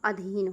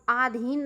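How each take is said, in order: First: The first vowel is short. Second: The first vowel is long. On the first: The speaker calls it right. "बल्कि अधीन होता है" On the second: The speaker calls it wrong. "आधीन नहीं होता"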